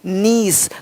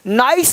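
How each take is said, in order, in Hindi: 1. स्वर एक लंबी 'ee' ध्वनि है। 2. स्वर एक 'eye' ध्वनि है। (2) "नाइस नहीं"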